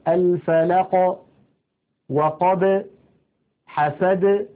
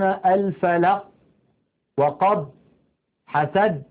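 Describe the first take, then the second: First: The final stops are released with a slight bounce. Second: The final stops are closed off abruptly. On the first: The speaker calls it right. "تخرج بالتباعد كما قلنا ولا تخرج بالتصادم، هكذا" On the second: The speaker calls it wrong. "لا يقولون"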